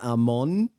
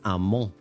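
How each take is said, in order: First: The word is said with its full standard ending. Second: The word is clipped in a Puerto Rican accent. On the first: The speaker calls it wrong. "it's not amon" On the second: The speaker calls it right. "I do it with a Puerto Rican accent"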